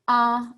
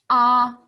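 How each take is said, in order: First: The pitch stays high and level. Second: The pitch stays high and level.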